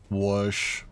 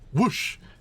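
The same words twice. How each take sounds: First: The word is said flat and deadpan. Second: The word is said in a lively, expressive way. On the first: The speaker calls it right. "Except deadpan" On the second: The speaker calls it wrong. "it wasn't whoosh"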